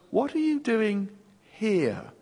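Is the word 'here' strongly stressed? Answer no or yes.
yes. The word 'here' carries the main stress. It points to this particular place. The speaker calls it right. "the stress falls on the here"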